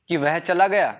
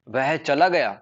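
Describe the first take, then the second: First: It is said with a questioning tune. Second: It is said with an exclaiming, surprised tune. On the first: It asks whether he left. "अपन ऐसे बोले question वाचक, question mark लगा करके" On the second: It expresses amazement that he left. "तो हम ऐसे surprise, surprise आश्चर्यचकित हो रहे हैं"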